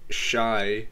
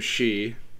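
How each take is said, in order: First: The name rhymes with 'sky', starting 'sh'. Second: The name rhymes with 'see'. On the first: The speaker calls it wrong. "It's not Shy" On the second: The speaker calls it right. "That's actually how you pronounce it"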